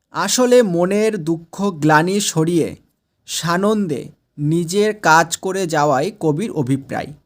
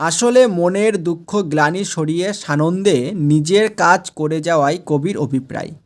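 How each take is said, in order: No difference in how they are said.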